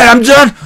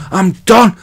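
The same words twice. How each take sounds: First: "done" pushed up high with a rising lift; emphatic done. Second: Said in the usual way. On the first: Shown as a demonstration. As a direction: land "I'm done" with a bright upward push.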